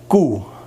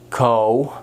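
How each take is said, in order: First: The vowel is a short 'oo'. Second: The vowel sounds like 'oh'. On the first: The speaker calls it right. "it's koe ... oe, short" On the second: The speaker calls it wrong. "so not O ... this word's not ko"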